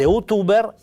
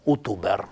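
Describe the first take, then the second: First: Youtuber con l'accento sull'ultima sillaba, più acuto; pronuncia sbagliata. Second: Youtuber con l'accento sulla seconda O; di' youtuber giusto, accento sulla seconda O; pronuncia corretta. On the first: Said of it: "sarebbe portare all'ese". (pronuncia errata di youtuber) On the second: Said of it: "butto l'accent insieme alla seconda O". (pronuncia corretta di youtuber) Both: Shown as a demonstration.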